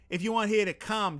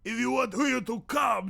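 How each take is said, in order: First: It is spoken in a Boston accent. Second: It is spoken in a Watto character voice. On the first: "Boston accent" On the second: "I'm gonna do Watto"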